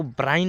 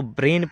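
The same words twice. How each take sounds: First: ब्राइन said "bryne", with an "eye" glide; wrong vowel. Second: ब्रेन said "brayn", with an "ay" vowel; correct vowel. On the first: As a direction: misread brain as ब्राइन, rhyming with fine. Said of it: "ब्राइन नहीं पढ़ना". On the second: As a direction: read brain as ब्रेन, rhyming with rain. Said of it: "इसको ब्रेन पढ़ना है". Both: Shown as a demonstration.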